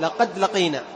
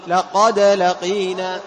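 First: لقد said quickly, the د swallowed without bounce; لقد with no qalqala on the دال. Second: لقد said slowly, the د released with qalqala. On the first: (لقد بدون قلقلة) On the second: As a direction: bounce the دال in لقد with a clear echo. (لقد بقلقلة واضحة في الدال) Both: Shown as a demonstration. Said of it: "وبعضهم لا يقلقل".

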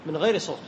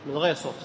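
The two takes are said the same way.

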